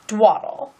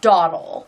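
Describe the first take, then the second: First: The word starts with a dw sound. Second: The word starts with a plain d sound. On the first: The speaker calls it wrong. "that's how I've always pronounced it" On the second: The speaker calls it right. "I guess it technically is Dawdle"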